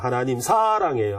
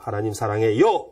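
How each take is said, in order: First: The stress is on the fourth syllable. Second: The stress is on the seventh syllable.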